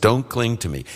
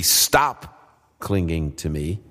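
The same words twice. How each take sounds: First: Said in the usual way. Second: "Stop clinging to me" said slowly with weight on "clinging"; a slow, deliberate "Stop clinging to me" with "clinging" stressed; corrected wording, slowed. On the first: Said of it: "that's actually how the C S B translates it". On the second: Shown as a demonstration. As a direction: correct the translation, slowing and leaning on "clinging". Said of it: "It should be".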